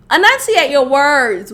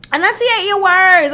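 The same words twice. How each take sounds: First: Said in the usual way. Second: "Enunciate" pitched higher and pressed hard; insistent repeat. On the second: Shown as a demonstration. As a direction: demand it, exasperated.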